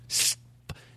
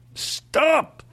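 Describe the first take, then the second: First: It is said in a calm, plain way. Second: It is said in a forceful, aggressive way.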